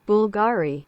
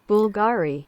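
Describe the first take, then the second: The two takes are said the same way.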